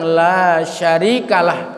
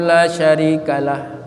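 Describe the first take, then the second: First: The vowel in 'la' is long. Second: The vowel in 'la' is short. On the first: No one is a partner to God. The speaker calls it right. "mestinya panjang" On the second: Someone shares partnership with God. The speaker calls it wrong. "La-nya pendek"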